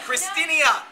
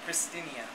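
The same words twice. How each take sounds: First: The name is said noticeably louder. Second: The name is said at normal volume.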